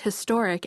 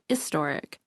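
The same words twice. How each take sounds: First: The word begins with an H sound. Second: The word begins without an H sound. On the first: "the majority of people pronounce the H in historic" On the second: "some people on the East Coast pronounce historic as historic"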